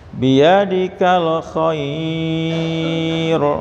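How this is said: The word khair is read softly and smoothly. The speaker calls it right. "lembut bacanya ya Pak"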